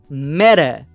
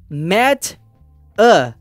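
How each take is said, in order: First: The T runs straight into the A. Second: The T and the A are said apart. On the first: "junta o som do T com esse som de A ... eu falo meta" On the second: "em vez de falar met a"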